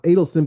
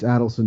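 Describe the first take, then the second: First: The first syllable does not sound like 'adds'. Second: The first syllable sounds like the word 'adds'. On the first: The speaker calls it wrong. "not Adelson" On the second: The speaker calls it right. "it's Adelson"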